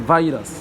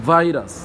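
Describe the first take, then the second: The two takes are said the same way.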